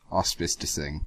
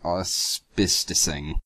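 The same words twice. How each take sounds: First: Said in the usual way. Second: "Auspicing" spelled out very slowly, syllable by syllable; sounding out a word. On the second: Shown as a demonstration. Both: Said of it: "what the fuck is that?".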